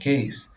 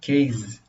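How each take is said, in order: First: The word ends with a voiceless S sound. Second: The word ends with a voiced Z sound. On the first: This is how native speakers say it. The speaker calls it right. "ela é pronunciada nativamente dessa forma" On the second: This is how a Brazilian speaker says it. The speaker calls it wrong. "o brasileiro acaba produzindo case, com Z"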